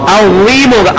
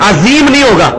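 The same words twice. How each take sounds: First: "عظیم" with a heavy, rounded Arabic ظ; the right way: thick, rounded "عظیم"; correct Arabic zha. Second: The wrong way: a thin, hissing z in "عظیم"; wrong light z. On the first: Teacher shows students the correct heavy pronunciation. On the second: Teacher shows students the mistake to avoid, thin and light. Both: Shown as a demonstration.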